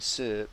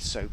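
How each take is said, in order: First: The vowel sounds like 'er', Hull style. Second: The vowel is standard, like 'oh'. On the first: "you wash them with syrup" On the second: "You don't wash your hands with soap"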